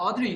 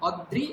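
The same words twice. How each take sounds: First: "অদ্রি" as open o, then dri; fuse d and ri in "অদ্রি"; joined sounds. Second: "অদ্রি" as od-dri with held d; separated sounds. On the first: Teacher explains ri-kar, sounds joined. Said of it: "দ এবং রিকার একসঙ্গে বললাম". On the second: Teacher explains the rophola, d and r separated. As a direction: split "অদ্রি" after a closing d. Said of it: "দ এবং র আলাদা বললাম". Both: Shown as a demonstration.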